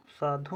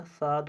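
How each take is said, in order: First: साधु said with a final u, as the wrong form; साधु spoken ending in a clear u sound; the incorrect साधु with its u ending; wrong spelling. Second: साध said with no final vowel; साध clipped short, ending on the d; the correct साध without the u; correct spelling. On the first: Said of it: "साधु नहीं होता". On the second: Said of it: "साध होता है". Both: Shown as a demonstration.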